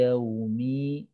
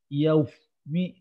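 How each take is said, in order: First: The w is voiced with no air escaping. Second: The w lets air hiss out like an f. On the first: The speaker calls it right. "itu wawu ya" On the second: The speaker calls it wrong. "wawunya jadi ada udaranya, susah malah ya"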